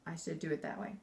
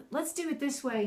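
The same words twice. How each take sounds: First: Low, quiet firm command; stern, low-pitched correction; stern order. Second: Higher-pitched, kindly suggestion; encouraging teacher tone. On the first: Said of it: "instead of". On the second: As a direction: coax gently with an encouraging lift. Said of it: "I do it more encouraging". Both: Shown as a demonstration.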